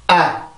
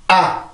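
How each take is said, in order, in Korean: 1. 이 모음은 성대를 긴장시켜서 강세를 줘요. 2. 이 모음은 성대를 긴장시켜서 강세를 줘요.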